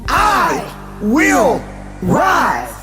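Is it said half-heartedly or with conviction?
with conviction. It is said forcefully, with conviction.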